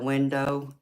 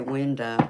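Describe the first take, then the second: First: The word is said with a standard accent. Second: The word is said with a southern accent. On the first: "instead of window" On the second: "I'll say window"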